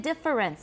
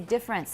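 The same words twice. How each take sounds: First: The word is said with three syllables. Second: The word is said with two syllables. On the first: The speaker calls it wrong. "I don't say difference" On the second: The speaker calls it right. "I say difference. How many syllables? Two"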